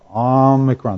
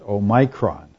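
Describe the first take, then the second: First: The first vowel is a short O sound. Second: The first vowel is a long O sound. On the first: The speaker calls it right. "It's a short O sound" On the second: The speaker calls it wrong. "you hear all kinds of weird pronunciations"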